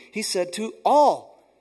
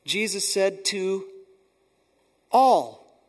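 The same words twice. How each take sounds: First: He said to all, slow and loud with all stressed; slow emphatic stress. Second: Jesus said to, pause, then ALL much louder; stress on all. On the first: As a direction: spell it out slowly, hitting all. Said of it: "so we can hear it now too". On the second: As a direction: hold back, then land hard on all. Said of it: "in verse twenty-three". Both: Shown as a demonstration.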